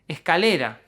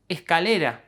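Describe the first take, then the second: Both takes have the same delivery.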